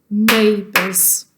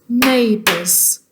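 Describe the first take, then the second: No difference in how they are said.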